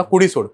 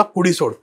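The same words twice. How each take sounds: First: Exorcist's command, higher and louder; commanding shout. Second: A firm, raised exorcist's command, somewhat higher; commanding shout. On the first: Exorcist commanding the spirit to leave the body, loud shout. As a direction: order the spirit out with force. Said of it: "ते म्हणला". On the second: Exorcist ordering the spirit out of the boy, mock shout. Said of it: "मोठ्याने ओरडून बोलला". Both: Retold or imitated.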